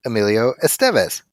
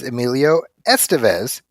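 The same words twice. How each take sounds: First: Estevez with the stress on the second syllable, es-TEV-ez. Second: Estevez with the stress on the first syllable, ES-te-vez. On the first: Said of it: "Zachy kept pronouncing Emilio Estevez". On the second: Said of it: "only heard his name referred to". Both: Shown as a demonstration.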